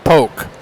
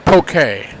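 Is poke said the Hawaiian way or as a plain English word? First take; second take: English; Hawaiian. First: The word is read as plain English. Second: The word is said the Hawaiian way. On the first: This is how people reading the sign will take it. The speaker calls it wrong. "everyone who sees that is probably not going to know how to pronounce that correctly" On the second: This is the dish's real name. The speaker calls it right. "Now I know it's poke"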